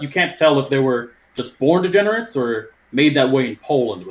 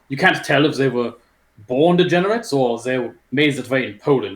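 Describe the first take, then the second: First: It is read in his normal voice. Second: It is read in a put-on accent.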